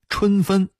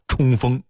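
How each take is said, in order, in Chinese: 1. 这是标准普通话发音。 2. 这是大同话发音。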